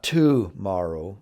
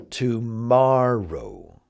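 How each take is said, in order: First: "tomorrow" stressed on TO, TOO-morrow; wrong-syllable stress. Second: "tomorrow" slow, with a long stressed MOR. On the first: Teacher shows learners what it's not, "tomorrow" stressed on TO. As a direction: hit the first syllable of "tomorrow". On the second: Teacher corrects the stress for learners, "tomorrow" stressed on MOR. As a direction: stretch the middle syllable of "tomorrow", to-MORR-ow. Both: Shown as a demonstration. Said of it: "the same with the next word".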